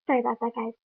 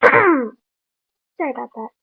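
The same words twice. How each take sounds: First: Said in the usual way. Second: Slow and louder, still clearing the throat; throat-clearing apology. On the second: Real, not acted. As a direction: push the words out through a cleared throat.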